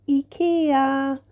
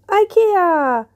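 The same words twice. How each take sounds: First: It is said with a Swedish pronunciation. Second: It is said with an English pronunciation.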